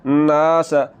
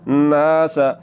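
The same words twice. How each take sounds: The two takes are said the same way.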